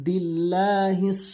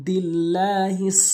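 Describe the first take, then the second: Both takes have the same delivery.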